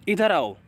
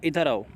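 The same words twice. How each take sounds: First: It is said loudly and sharply. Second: It is said softly and gently.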